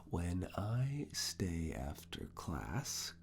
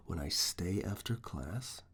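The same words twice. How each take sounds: First: Drawn-out, measured question; slow dictation. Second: Said in the usual way. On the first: Acted. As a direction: stretch the words out for note-taking.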